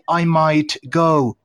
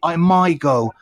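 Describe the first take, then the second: First: The T at the end of 'might' is pronounced. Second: The T at the end of 'might' is dropped. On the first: The speaker calls it wrong. "Don't say" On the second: The speaker calls it right.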